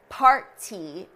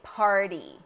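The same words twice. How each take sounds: First: The middle consonant is a clearly released T. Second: The middle consonant is a quick, light flap. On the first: "pronouncing the T, which we don't do in American English" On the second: "Where you're actually producing the flap"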